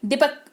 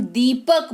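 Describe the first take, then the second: First: दीपक with a short clipped i; short i dipak. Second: दीपक with a long stressed ee; long ee deepak. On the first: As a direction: say दीपक with a quick short i, the wrong way. (दीपक छोटी इ के साथ, गलत उच्चारण) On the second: (दीपक लंबी ई पर ज़ोर देकर) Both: Shown as a demonstration. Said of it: "दीर्घई लगाते हो तो आप उस अक्षर पर जोर डालते हो".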